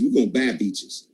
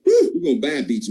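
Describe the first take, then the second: First: Said in the usual way. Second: Much higher, thrilled second take; excited repeat. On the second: Shown as a demonstration. Speaker rallying his sales team, repeating it excitedly. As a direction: lift it right up to fire the team up.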